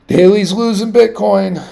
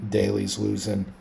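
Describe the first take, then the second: First: Daily's losing Bitcoin said higher and louder, with stress on Daily's; emphatic louder repeat. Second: Said in the usual way. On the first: Real, not acted. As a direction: repeat it, pushing hard on Daily's.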